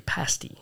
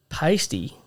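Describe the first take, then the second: First: Pasty with a short flat a as in "pass", PASS-tee; soft, breathy aside giving pasty the British PAS-tee; British pronunciation. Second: Said in the usual way. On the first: Shown as a demonstration. Host showing co-host the British twang on pasty, whispered. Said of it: "that British twang to you". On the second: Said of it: "as I mean pastry".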